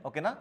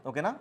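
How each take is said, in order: No difference in how they are said.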